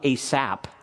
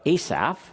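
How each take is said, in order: First: The name ends with a p sound. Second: The name ends with an f sound. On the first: The speaker calls it wrong. "it's not Asap" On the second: The speaker calls it right. "now pronounce it correctly"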